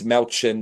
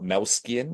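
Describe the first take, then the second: First: The middle of the name has a 'ch' sound. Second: The middle of the name has an 'sk' sound. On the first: The speaker calls it right. "it's Malchin" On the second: The speaker calls it wrong. "not Malskian"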